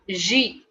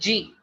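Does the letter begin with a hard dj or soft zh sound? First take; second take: soft zh; hard dj. First: It begins with a soft zh sound. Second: It begins with a hard dj sound. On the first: The speaker calls it right. "the pronunciation of alphabet J in French is like J" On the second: The speaker calls it wrong. "nobody will pronounce it like G, G. G is wrong"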